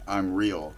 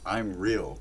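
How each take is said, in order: First: It is declared boldly and with confidence. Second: It is said hesitantly, without confidence. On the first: He firmly asserts that he is real. "he is proclaiming it" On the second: He is trying to convince himself and has lost confidence. "he's trying to convince himself"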